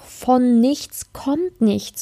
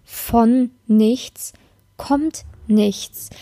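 First: "Von nichts kommt nichts" spelled out very slowly, each word weighted; slow, deliberate "kommt" falling at the end; slow emphatic maxim. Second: "Von nichts" rising, a pause, then "kommt nichts" falling; a suspended rise on "nichts" resolved by a falling "kommt nichts"; split with a pause. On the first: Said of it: "so ist es in allen Lebensbereichen". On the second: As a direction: hold "Von nichts" up, then drop "kommt nichts" after a beat. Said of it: "Und auch in der Liebe". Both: Shown as a demonstration.

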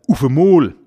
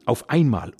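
First: "Ufemol" called out louder, U for Au. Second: Said in the usual way. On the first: Shown as a demonstration. Dialect teacher in his podcast, loud "Ufemol" with U. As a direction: punch "Ufemol" with a U where Au would be. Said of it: "Ganz oft wird das Au durch ein U ersetzt".

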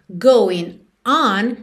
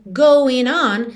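First: "going", a break, then a fresh ON; words separated. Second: "going on" run together as one; words linked. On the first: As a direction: split "going. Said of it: "soa de outro jeito". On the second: Teacher contrasting two versions, going on linked. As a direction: join "going on" without a break. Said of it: "soa de um jeito". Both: Shown as a demonstration.

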